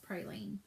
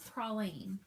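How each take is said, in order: First: It is said the non-Southern way. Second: It is said the Southern way. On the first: The speaker calls it wrong. "you would like to believe that it is praline" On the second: The speaker calls it right. "the proper ways to say those words"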